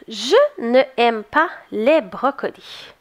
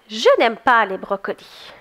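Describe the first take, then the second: First: The word 'ne' keeps its full vowel. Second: The vowel of 'ne' is dropped before 'aime'. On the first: The speaker calls it wrong. "on dirait qu'elle est bizarre" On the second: The speaker calls it right. "je trouve qu'elle est moins bizarre un peu"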